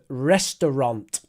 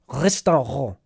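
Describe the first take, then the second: First: It is said with an English r sound. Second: It is said with a German r sound. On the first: "in English, we say er" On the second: "in German, they say r"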